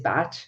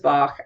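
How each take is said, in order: First: The name ends with a 'ch' sound, like batch. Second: The name ends with a 'k' sound, like bahk. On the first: This is how the man himself said his name. "His pronunciation of his name is Bach" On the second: This is how a musician says the name. "So to me, the, the name is Bach"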